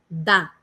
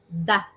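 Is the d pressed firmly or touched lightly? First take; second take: firmly; lightly. First: The d is pressed firmly, Portuguese style. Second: The d is touched lightly, French style. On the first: "Você faz uma certa força com a sua língua no céu da boca" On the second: "de uma forma bem sutil. Encarna um francês"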